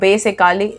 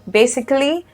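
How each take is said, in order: First: The ending is said strongly, like a separate 'Cali'. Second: The ending is said softly and lightly. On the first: The speaker calls it wrong. "don't pronounce it Cali" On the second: The speaker calls it right. "You just have to pronounce it softly"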